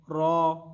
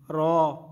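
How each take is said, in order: First: The vowel is a full, heavy aw sound. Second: The vowel is a full, heavy aw sound.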